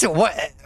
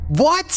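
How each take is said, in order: First: Said in the usual way. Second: Very high, loud shocked what. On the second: Real, not acted. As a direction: blurt it out in disbelief. Sudden shock in game.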